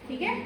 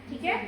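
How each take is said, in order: No difference in how they are said.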